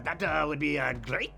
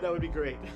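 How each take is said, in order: First: It is said in a put-on French accent. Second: It is said in a plain, natural accent.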